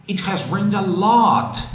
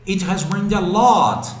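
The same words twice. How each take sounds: Both takes have the same delivery.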